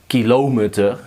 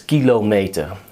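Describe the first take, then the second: First: The stress is not on the first syllable. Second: The stress is on the first syllable. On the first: The speaker calls it wrong. "Don't say kilometer. That uh, sounds weird" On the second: The speaker calls it right. "put the emphasis on the first syllable"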